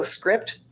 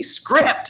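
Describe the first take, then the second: First: Soft, light helpful prompt; quick, quiet cue to a colleague; casual one-word reminder. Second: High, sharp mock scolding; exaggerated one-word telling-off; mock yelled reminder. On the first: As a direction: drop the word in gently as a reminder. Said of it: "just go, "Script," ... it's just saying the word". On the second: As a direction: call the word out as if fussing. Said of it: "You're not really yelling, you're fussing at us". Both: Shown as a demonstration.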